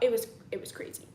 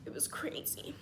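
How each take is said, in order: First: Said in the usual way. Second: Whispered aside, no voice. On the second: Real, not acted. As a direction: breathe it out as a secret.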